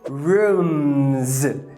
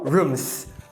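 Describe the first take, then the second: First: The word ends with a buzzing z sound. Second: The word ends with a hissing s sound. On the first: The speaker calls it right. "você vai adicionar um Z" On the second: The speaker calls it wrong. "e não rooms, com S"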